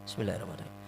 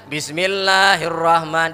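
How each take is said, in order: First: It is recited very quietly, almost silently. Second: It is recited clearly and out loud. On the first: The opening formula is recited silently in prayer. "Kalau mereka dibaca sir. Begimit" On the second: The opening formula is recited audibly in prayer. "Dibaca zahar"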